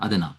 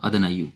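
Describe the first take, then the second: First: The word ends in a plain 'a' sound. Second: The word ends with an added 'yu' sound. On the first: This is how the word is actually read. "क्योंकि बिकॉज इस नून पे फतहा है तो अदना पढ़ेंगे इसको" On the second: This is the form the word pattern predicts. "अगर हम पैटर्न पे रखें तो अदना यू"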